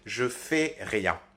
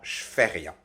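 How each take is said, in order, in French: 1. 'Je' se prononce pleinement, comme sa propre syllabe. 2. 'Je' se fond avec 'fais' en un son 'ch'. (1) "la version orale standard" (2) "avec ce procédé donc du che"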